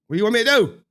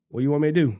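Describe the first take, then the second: First: Higher, louder retort; louder defiant question. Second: Said in the usual way. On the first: Retold or imitated. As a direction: push back hard on "do". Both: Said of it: "I'm like".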